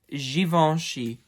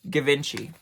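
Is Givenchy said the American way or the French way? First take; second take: French; American. First: The name is said the French way. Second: The name is said the American way. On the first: The speaker calls it right. "It is pronounced Givenchy, and it is another French designer" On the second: The speaker calls it wrong. "as a lot of Americans would like to put it"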